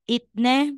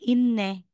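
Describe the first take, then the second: First: A t sound comes before the n. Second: An n sound replaces the t. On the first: The speaker calls it wrong. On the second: The speaker calls it right.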